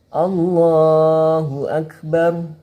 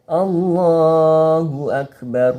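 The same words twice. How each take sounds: No difference in how they are said.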